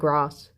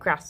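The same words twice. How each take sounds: First: It has long, stretched vowels. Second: It has short northern vowels.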